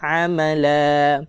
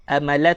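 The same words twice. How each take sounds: First: Slow "amala" opening on a pharyngeal ain; stretched "amala" with a true ain; correct ain. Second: Quick "Amala" with a plain glottal a; the mistaken "Amala", hamzah in place of ain; ain read as hamzah. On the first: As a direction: model "amala" with the first a squeezed in the throat. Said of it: "Kita nak amala". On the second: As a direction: say "Amala" without any throaty ain. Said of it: "itu hamzah". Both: Shown as a demonstration.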